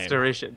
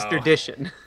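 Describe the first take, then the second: First: The name is said without any d sound. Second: The name is said with an added d sound. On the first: The speaker calls it right. "Asterishin is his name" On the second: The speaker calls it wrong. "You keep adding a D"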